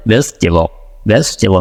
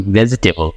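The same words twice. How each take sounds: First: ভেজিটেবল clipped to a quick American "vej-tuh-bl"; American ভেজিটেবল with a short pause inside; American accent. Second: ভেজিটেবল said with a full Bengali v and every syllable clear; Bengali-style vegetable. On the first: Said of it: "ও কি বলে?". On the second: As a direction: say ভেজিটেবল the way Bangladeshi speakers do, each syllable sounded. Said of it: "আমরা কি বলি?". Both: Shown as a demonstration.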